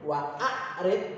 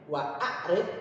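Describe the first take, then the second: The two takes are said the same way.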